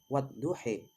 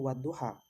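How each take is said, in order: First: The final vowel is tilted toward 'e'. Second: The final vowel is a plain open 'a'.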